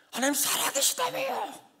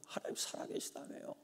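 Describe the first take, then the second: First: High, strained, tearful cry to God; weeping prayer. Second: Soft unvoiced whispered plea. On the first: Retold or imitated. Pastor retelling his tearful prayer to God, high and weeping. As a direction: plead through tears, much higher. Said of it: "막 울었어요". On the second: Pastor's exhausted prayer to God, whispered. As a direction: breathe the words out, spent. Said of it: "막 밟아요".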